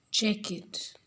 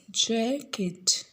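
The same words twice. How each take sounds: First: Said in the usual way. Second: "Jacket" drawn out as JACK, then ket; stress on first syllable. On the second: Shown as a demonstration. Teacher showing stressed first syllable, "Jacket" split as JACK-et. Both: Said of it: "The first syllable of jacket is stressed".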